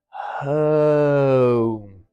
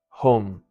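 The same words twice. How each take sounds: First: The first part of the vowel is held longer. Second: The first part of the vowel is clipped short. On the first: The speaker calls it right. "you want a bit longer on that er" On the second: The speaker calls it wrong. "skip that part"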